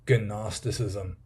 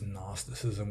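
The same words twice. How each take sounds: First: The word starts with a hard G sound. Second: The word starts with an N sound, G silent. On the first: The speaker calls it wrong. "I pronounce it wrong on purpose" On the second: The speaker calls it right. "I'm deliberately being nice and not pronouncing the G"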